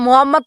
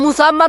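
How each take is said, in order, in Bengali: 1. নামটি 'Mo' দিয়ে শুরু এবং এতে একটি 'h' আছে। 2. নামটি 'Mu' দিয়ে শুরু এবং এতে একটি 's' আছে। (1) "নামটাও ভালো উচ্চারণ করতে পারে না" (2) "আরে মুসাম্মদ না"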